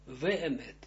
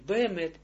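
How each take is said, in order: First: The word begins with a V sound. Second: The word begins with a B sound. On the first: The speaker calls it right. "произносится не б, а в" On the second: The speaker calls it wrong. "вемет не бемет"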